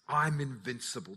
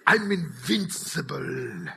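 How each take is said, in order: First: It is said in his normal voice. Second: It is said in a put-on accent.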